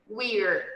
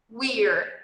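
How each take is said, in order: No difference in how they are said.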